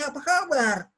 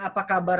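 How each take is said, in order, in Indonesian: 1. Diucapkan hangat, dengan intonasi yang hidup. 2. Diucapkan datar, dengan sedikit intonasi. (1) "Itu sudah beda" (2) "kita bilang apa kabar saja"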